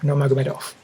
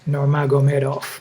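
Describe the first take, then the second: First: The name is said very quickly. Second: The name is said at a quick pace. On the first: "Even faster" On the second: "Let's try again"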